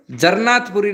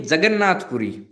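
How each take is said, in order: First: जरनाथपुरी with an r in place of the double n; wrong pronunciation. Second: जगन्नाथपुरी with a clear g and a doubled n; correct pronunciation. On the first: Teacher correcting a student's slip, the wrong form. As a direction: mispronounce it as जरनाथपुरी. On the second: Teacher correcting a student's slip, the right form. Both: Shown as a demonstration. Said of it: "जरनाथपुरी नहीं".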